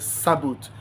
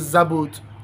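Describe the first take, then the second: First: The word begins with a hissing s sound. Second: The word begins with a buzzing z sound. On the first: "Sabot is S A B A O T H" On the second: "Zabot is Z A B A O T H"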